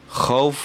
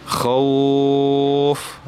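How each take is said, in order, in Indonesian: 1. Bunyi f di akhir dibaca panjang. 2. Vokal au dibaca panjang. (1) "bukan fa-nya, fa sukun yang dibaca panjang" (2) "tapi khau-nya ya, wawu sukunnya"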